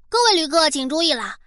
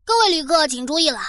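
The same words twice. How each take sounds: First: Steady announcer read; airport announcement. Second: Airport announcement. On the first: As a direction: read it like a station PA. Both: Pretend. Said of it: "都到了外星球了".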